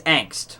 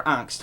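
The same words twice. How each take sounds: First: "angst" with the short A of "bank"; alternate pronunciation. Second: "Angst" with an open "ah" vowel; alternate pronunciation. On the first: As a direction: say "angst" the English way, "ANGKST". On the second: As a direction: say "Angst" the German way, "AHNGKST". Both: Shown as a demonstration. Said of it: "how do you pronounce that?".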